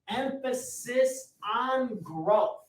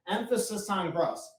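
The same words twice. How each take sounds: First: Slow, drawn-out Emphasis on growth, higher, rising on on. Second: Said in the usual way. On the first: Shown as a demonstration. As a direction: stretch each word of Emphasis on growth slowly, lifting the pitch.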